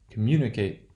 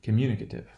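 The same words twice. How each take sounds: First: Communicate with MU stressed and a full "ate" ending. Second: Communicative with MU stressed, "cative" reduced. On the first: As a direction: model Communicate, MU strong, "kate" unreduced. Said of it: "the place of stress in the original word will not change". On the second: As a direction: model communicative, MU strong, schwa in "kuh-tiv". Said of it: "that eight becomes, uh". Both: Shown as a demonstration.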